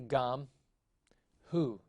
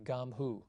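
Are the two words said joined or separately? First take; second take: separately; joined. First: The two words are said separately with a break. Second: The two words are run together as one. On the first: The speaker calls it wrong. "You don't say gam, hu" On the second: The speaker calls it right. "You must say gam hu. You must pronounce them together"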